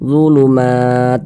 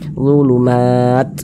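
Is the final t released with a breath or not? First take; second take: no breath; breath. First: The final t is released without any breath. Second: The final t is released with a puff of breath. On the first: The speaker calls it wrong. "enggak ada nafas yang mengalir, enggak ada percikannya" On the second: The speaker calls it right. "ada nafas yang mengalir seperti memercik gitu"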